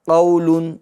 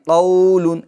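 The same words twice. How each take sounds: First: The first vowel is kept short and soft. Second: The first vowel is stretched out long. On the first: The speaker calls it right. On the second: The speaker calls it wrong.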